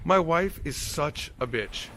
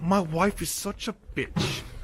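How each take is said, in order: First: It is said in his natural voice. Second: It is said in a put-on accent.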